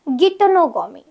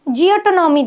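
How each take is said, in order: First: The word begins with a hard 'gi' sound. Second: The word begins with a 'jee-oh' sound. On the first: The speaker calls it right. "इसका सही pronunciation होता है" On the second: The speaker calls it wrong. "बहुत जगह पे आपको जियोटोनॉमी दिखेगा"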